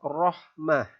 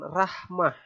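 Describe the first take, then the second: First: The first r sound is thick and rounded. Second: The first r sound is thin and light. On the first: The speaker calls it right. "Ro tafkhim itu artinya ro yang dibaca tebal" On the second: The speaker calls it wrong. "bukan rahmah, ya. Salah nanti"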